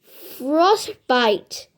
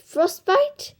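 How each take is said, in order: First: Said in the usual way. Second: "Frostbite?" asked with a higher, rising tune; rising "Get it?" tune. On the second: Acted. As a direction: push "Frostbite?" up as a question, fishing for a laugh. Punchline then repeated question.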